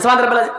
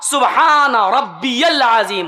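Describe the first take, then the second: First: It is said fast and rushed. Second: It is said slowly, each word clear.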